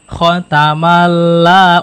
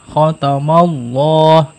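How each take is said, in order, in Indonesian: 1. Huruf L dalam Allah terdengar ringan dan tipis. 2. Huruf L dalam Allah terdengar berat dan tebal. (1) "bukan dibaca khotamalla" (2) "jadi tebal ya"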